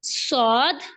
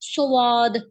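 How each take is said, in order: First: It is said firmly with a whistling hiss. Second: It is said softly with rounded lips. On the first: The speaker calls it right. "थोड़ा-सा इसको सख्ती से पढ़ेंगे ना, फिर ही सीटी की आवाज़ निकलेगी" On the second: The speaker calls it wrong. "अब आपने इसको ऐसे नहीं पढ़ना स्वाद, मुँह को बिल्कुल भी गोल नहीं करना"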